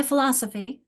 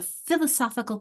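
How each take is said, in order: First: Philosophy with LOS stressed; stress on second syllable. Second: Philosophical with SOPH stressed; stress on third syllable. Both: Shown as a demonstration. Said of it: "where's the stress".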